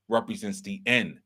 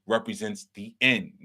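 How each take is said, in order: Both takes have the same delivery.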